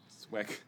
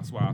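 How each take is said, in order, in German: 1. Der g-Laut am Ende wird ausgesprochen. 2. Der g-Laut am Ende wird weggelassen.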